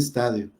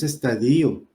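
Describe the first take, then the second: First: The stress falls on the syllable ta. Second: The stress falls on the syllable di. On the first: The speaker calls it right. "en un estadio" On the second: The speaker calls it wrong. "no es estadio"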